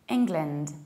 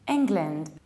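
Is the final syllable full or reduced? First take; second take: reduced; reduced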